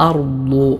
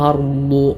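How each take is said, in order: Both takes have the same delivery.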